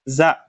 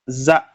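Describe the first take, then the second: No difference in how they are said.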